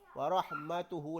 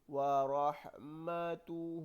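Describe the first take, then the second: First: The final vowel is cut short. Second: The final vowel is held long. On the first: The speaker calls it wrong. "bacaannya menjadi tidak sedap" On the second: The speaker calls it right. "kita baca panjang"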